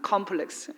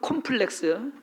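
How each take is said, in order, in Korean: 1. 이 단어는 영어식 발음으로 말해요. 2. 이 단어는 한국식 발음으로 말해요. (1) "영어로는" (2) "한국말로는"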